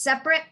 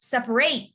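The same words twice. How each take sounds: First: The last syllable is a weak "it" sound. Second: The last syllable is a full "ate" sound. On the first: It is used as an adjective. "But the second part is of adjective" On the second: It is used as a verb. "if it's a verb, you have to pronounce it. Separate, separate, ate"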